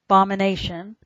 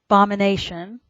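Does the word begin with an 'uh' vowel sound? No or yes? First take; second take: no; no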